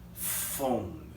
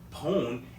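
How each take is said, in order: First: The word begins with an F sound. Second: The word begins with a P sound. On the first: The speaker calls it right. "it's pronounced as f" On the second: The speaker calls it wrong. "we don't say pone"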